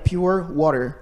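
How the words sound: It is said with an American accent. "si un Américain doit le dire, il va dire"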